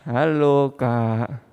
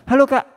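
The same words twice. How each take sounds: First: It is said weakly, with low energy. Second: It is said eagerly, with high energy.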